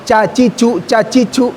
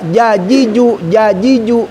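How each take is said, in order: First: Each syllable starts with a voiceless ch sound. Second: Each syllable starts with a voiced j sound. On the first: The speaker calls it wrong. "bukan cacicu cacicu" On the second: The speaker calls it right. "dilatih juga jajiju jajiju"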